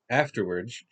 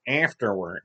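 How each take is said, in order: First: It is said in the speaker's ordinary voice. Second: It is said in a put-on cartoon-character voice. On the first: The speaker calls it right. "we'll just do normal" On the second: The speaker calls it wrong. "no, we're not doing Squidward"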